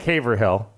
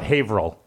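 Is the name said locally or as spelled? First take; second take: as spelled; locally. First: It is pronounced the way it is spelled. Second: It is pronounced the local way, not as spelled. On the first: The speaker calls it wrong. "I know it looks like Haverhill" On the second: The speaker calls it right. "But we call it Haverhill"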